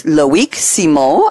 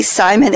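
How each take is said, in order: First: French pronunciation, ending on a nasal "Simon"; best attempt at a French accent. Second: Said in the usual way. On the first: Shown as a demonstration. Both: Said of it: "I'm doing my best French accent".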